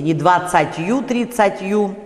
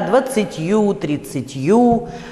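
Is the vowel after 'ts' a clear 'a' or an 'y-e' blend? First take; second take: clear a; y-e blend. First: The vowel after ts is a clear a. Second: The vowel after ts is between y and e. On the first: The speaker calls it wrong. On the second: The speaker calls it right. "«ы» с оттенком «э»"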